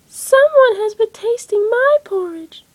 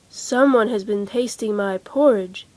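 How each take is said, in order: First: It is said in a little baby voice. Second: It is said in a great big voice.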